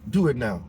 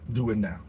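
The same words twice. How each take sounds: First: It is said in an imitated Austrian-accented voice. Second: It is said in the speaker's normal accent.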